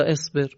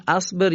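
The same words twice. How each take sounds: First: اصبر begun with "e": esber; kasra on alef. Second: اصبر begun with "a": asber; fatha on alef. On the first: Teacher asking about an unmarked alef, اصبر said "esber". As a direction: open اصبر on "e", as the other option. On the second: Teacher asking about an unmarked alef, اصبر said "asber". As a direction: open اصبر on "a", pitched high. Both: Shown as a demonstration. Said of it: "الف حرکت نداره".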